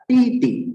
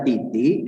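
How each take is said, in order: First: "titi" with a high level first syllable and a falling second; high "ti", then drop sharply on the second "ti"; first and fourth tones. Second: The mistaken toneless "titi", lower than usual; wrong tones. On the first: Teacher correcting the reading after the wrong example, first and fourth tone. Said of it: "ada nada pertama dan keempat". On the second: Teacher showing the learner how not to read it, wrong tones. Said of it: "bukan titi gitu ya". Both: Shown as a demonstration.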